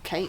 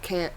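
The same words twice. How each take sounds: First: It is said with a Southern drawl. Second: It is said in a non-Southern accent. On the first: The speaker calls it right. "It's can't" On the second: The speaker calls it wrong. "Not can't"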